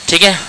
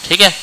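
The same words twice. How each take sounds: The two takes are said the same way.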